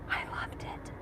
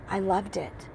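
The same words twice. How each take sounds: First: Breathy hushed whisper; whispered, much softer. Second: Said in the usual way. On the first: Real, not acted. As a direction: whisper it like a secret. Hushed confession after the show.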